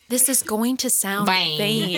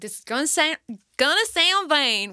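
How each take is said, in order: First: It is said without a Southern American accent. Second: It is said with a Southern American accent.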